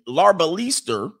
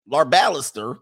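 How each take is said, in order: First: "Larbalister" with a drawn, stressed "LEE" in the middle; trying a pronunciation. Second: "Larbalister" with stress on BAL; second pronunciation try. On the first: Host sounding out an unfamiliar surname, tentative lar-ba-LEE-ster. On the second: Host correcting his try at a surname, lar-BAL-ister. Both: Shown as a demonstration.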